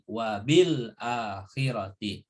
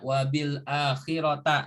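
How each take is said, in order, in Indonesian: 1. Kata terakhir diakhiri dengan vokal 'i'. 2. Kata terakhir diakhiri dengan vokal 'a'. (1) "Karena ada huruf jar bi" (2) "Nggak boleh dibaca wabil akhirota, nggak boleh"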